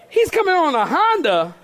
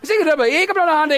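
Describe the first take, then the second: First: It is said at a normal, clear speed. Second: It is said fast, like speaking in tongues.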